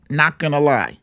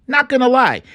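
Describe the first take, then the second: First: Said in the usual way. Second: Higher, insistent second take; emphatic repeat. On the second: Real, not acted. Vlogger doubling down on his admission, pitched up.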